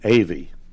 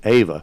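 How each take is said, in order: First: The name ends in an 'ee' sound. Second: The name ends in an 'ah' sound. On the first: This is how locals say the name. The speaker calls it right. "They're really from Avie" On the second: This is how outsiders say the name. The speaker calls it wrong. "people from Ava"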